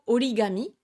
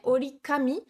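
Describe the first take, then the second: First: The third syllable starts with a voiced g. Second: The third syllable starts with a voiceless k. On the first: The speaker calls it right. "le K devient G" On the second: The speaker calls it wrong. "orikami, ça ne se dira pas"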